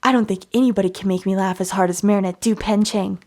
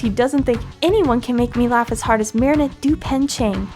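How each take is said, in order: First: The voice is pitched lower. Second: The voice is high-pitched.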